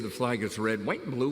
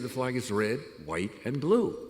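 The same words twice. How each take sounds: First: White runs into and with no pause. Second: There is a short pause after white. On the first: The speaker calls it wrong. "we don't say" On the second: The speaker calls it right. "We say"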